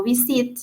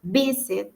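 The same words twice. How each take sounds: First: Visit mis-stressed on its last syllable, "vi-SIT"; stress on second syllable. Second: Visit punched on its first syllable, "VIS-it"; stress on first syllable. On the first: English teacher shows students how not to say it, visit stressed on the final syllable. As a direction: say visit with the punch wrongly on -sit. Yo no digo listen. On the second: English teacher shows students the correct way, visit stressed at the start. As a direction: hit VIS, let -it drop away. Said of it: "yo digo listen". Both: Shown as a demonstration.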